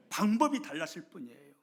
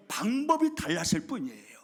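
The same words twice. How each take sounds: First: Said in the usual way. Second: 방법이 hit loud and falling; emphatic stress. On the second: Acted. Pastor driving home the lesson, loud and emphatic. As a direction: punch 방법이 hard, the whole line loud.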